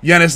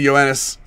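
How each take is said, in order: First: The name begins with a single 'yeh' sound. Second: The name begins with a 'yo-eh' sound. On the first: The speaker calls it wrong. "Someone got me on Yenis last video" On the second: The speaker calls it right. "instead of Yoenis"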